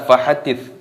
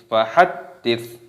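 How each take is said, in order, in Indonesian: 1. Bunyi d tunggal dan ringan. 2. Bunyi d digandakan dan ditekan. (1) "jangan dibaca fahaddits" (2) "ini dibaca fahaddits"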